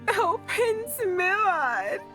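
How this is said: It is said in a woman's voice.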